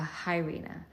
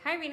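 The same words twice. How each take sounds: First: The greeting sounds serious and flat. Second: The greeting sounds bright and chirpy.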